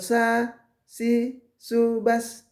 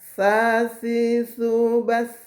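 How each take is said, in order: First: The consonant has a hissing s sound. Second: The consonant is soft with no hissing s. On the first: The speaker calls it wrong. "bukan ... tidak boleh bunyi ada s-nya, desiran" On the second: The speaker calls it right. "Jadi sa, sa si subas"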